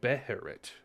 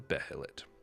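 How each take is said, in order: First: The third consonant is an R sound. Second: The third consonant is an L sound.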